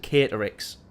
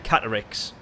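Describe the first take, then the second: First: The first syllable sounds like kate. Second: The first syllable sounds like cat. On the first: "Or was it Kate?" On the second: "Cat, right?"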